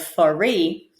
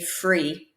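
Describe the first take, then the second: First: An extra vowel separates the F and R. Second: The F and R join with no vowel. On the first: The speaker calls it wrong. "instead of free" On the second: The speaker calls it right. "say free"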